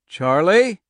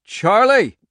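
First: Calling out. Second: Urgent cracked call. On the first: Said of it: "he called". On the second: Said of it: "His voice cracked and urgent". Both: Acted.

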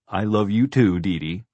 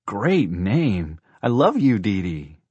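First: Louder, slightly raised, hearty woman's reply; hearty affection. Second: Put-on higher, louder, swooping child's delight; gushing child. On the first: Horse lady answers for her horse, hearty and fond. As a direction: answer fondly, leaning on "too". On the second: Girl tells the horse she loves her, gushing. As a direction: gush with big swoops on the words. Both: A narrator's reading.

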